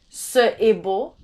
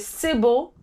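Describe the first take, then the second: First: Ce and est are said as two separate syllables. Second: Ce and est merge into one syllable. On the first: The speaker calls it wrong. "You don't say ce est beau" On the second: The speaker calls it right. "So you say c'est beau"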